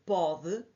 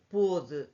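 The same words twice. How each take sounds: First: "pode" with an open o; present-tense "pode", open stressed vowel. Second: "pôde" with a closed, rounded o; past-tense "pôde", closed stressed vowel. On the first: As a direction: say "pode" with o as in "avó". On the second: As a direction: say "pôde" with o as in "avô". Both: Shown as a demonstration. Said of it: "para eu poder distinguir".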